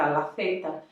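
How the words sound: Zeta begins with a muffled, lisp-like sound. This is how it is said in Spain. "mais abafado desse jeito, se você está na Espanha"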